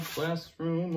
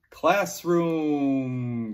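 First: Said in the usual way. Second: Classroom called out loud and drawn out; loud model word. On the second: Shown as a demonstration. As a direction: project Classroom for the class to repeat. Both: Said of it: "Good job".

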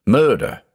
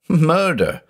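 First: A raised, pained cry of murder; anguished cry. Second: Murder cried much higher, near breaking; rising anguished cry. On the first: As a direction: blurt it out in horror. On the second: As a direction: let the repeat climb into horror. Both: A narrator's reading. Judge's anguished outburst.

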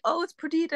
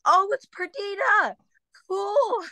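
First: High-pitched quoted chorus; high mimicked announcement; everyone else's reaction. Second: Very high drawn-out squeal; exaggerated high-pitched fake recognition; mock enthusiasm. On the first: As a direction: say it high, imitating the others. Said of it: "Everyone was like". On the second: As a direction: play along in a high, slow falsetto. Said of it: "And I'm like".

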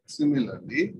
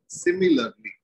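First: "similarly" dropped low with a rise at the end; low rising similarly. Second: "Similarly" jumps very high and falls; loud high teacher's cue word; high exclaimed similarly. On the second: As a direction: pitch "Similarly" way up, then drop. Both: Shown as a demonstration.

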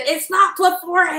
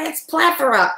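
First: "plethora" as pleh-THOR-uh, in a high mock outburst; mock-indignant, stressing the THOR in "plethora"; mispronounced plethora. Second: "plethora" as PLETH-er-uh, pitched high; mock-exasperated, punch the PLETH in "plethora"; corrected plethora. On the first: [name] correcting Vinny's word, indignantly mimicking pleh-THOR-uh for "plethora". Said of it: "crazy, and he said". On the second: [name] correcting Vinny, exasperated PLETH-er-uh for "plethora".

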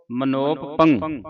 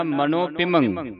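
First: Slow, ਮਨੋਪ ਪੰਗ run together wrongly; imitating a common mistake with ਮਨੋਪ ਪੰਗ; teacher models the wrong way; wrong reading. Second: ਮਨੋ ਪਿਮੰ with ਮਨੋ split off and a nasal ending on ਪਿਮੰ; slow and soft, ਮਨੋ then ਪਿਮੰ; teacher shows the right split; correct reading. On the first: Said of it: "ਕਈ ਸੰਗਤਾਂ ਪੜ੍ਹਦੀਆਂ ਮਨੋਪ". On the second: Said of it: "ਮਨੋ ਅੱਡ ਕਰਨਾ ਹੈ". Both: Shown as a demonstration.

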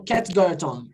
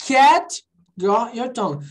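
First: "cat got your tongue" run together at normal speed, lower; quick connected delivery; fluent speech. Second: "Cat got your tongue" drawn out, word by word; slow classroom model; slow pronunciation. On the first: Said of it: "quando eu falo assim fluentemente". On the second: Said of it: "quando eu falo devagar". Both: Shown as a demonstration.

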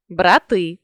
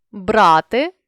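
First: Брати with final ТИ stressed; stress on last syllable. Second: Брати with БРА stressed; stress on first syllable. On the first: Teacher means the plural noun, брати stressed on ТИ. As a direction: land on ТИ ending брати. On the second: Teacher means the verb, Брати stressed on БРА. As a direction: lean on the opening БРА of Брати. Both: Shown as a demonstration. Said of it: "залежно від наголосу".

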